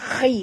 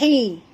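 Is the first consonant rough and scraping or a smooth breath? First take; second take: rough; smooth breath. First: The first consonant is a rough scraping kh. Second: The first consonant is a smooth breathy h. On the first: The speaker calls it right. "ini khi" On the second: The speaker calls it wrong. "jangan baca hi, kalau hi jadi ha"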